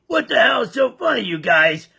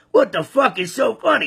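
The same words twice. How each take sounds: First: Mock shout. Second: Said in the usual way. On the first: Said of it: "So he asked him". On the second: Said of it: "So the farmer's thinking".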